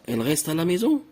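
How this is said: The voice rises at the end. It is a question. "lorsque tu ajoutes le point d'interrogation, on va le lire comme ça"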